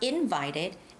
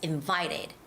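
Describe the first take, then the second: First: The stress is on the first syllable. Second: The stress is on the second syllable. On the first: The speaker calls it wrong. "It's not invited" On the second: The speaker calls it right. "it has the second syllable stress"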